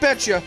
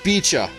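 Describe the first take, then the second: First: The first vowel sounds like in 'bet'. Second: The first vowel sounds like in 'bee'. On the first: The speaker calls it wrong. "Not Betcha" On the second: The speaker calls it right. "That's how you're supposed to pronounce it"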